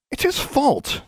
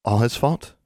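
First: High-pitched insistent accusation; indignant blame. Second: Light, rising, offhand query; casual question. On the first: Alexandra blames Larry to Anna, indignant and high. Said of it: "Alexandra said". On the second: Anna questions Alexandra while polishing her wand, casually. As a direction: ask it lightly with a lift at the end. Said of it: "she asked casually". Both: A narrator's reading.

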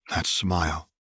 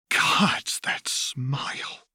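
First: Said in the usual way. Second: Slow, hushed whisper; whispered, dragging slowly; awed whisper. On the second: A narrator's reading. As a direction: breathe it out in horror.

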